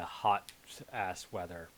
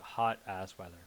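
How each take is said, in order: First: There is a pause after "hot". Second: It is said without a pause after "hot".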